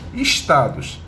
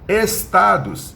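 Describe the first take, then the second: First: The s before t sounds hushed, like sh. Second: The s before t sounds clear and hissing. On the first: "Estou chiando" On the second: "Limpinho, sem chiado"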